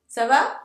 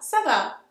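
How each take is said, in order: First: The voice rises at the end, as a question. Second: The voice falls at the end, as an answer.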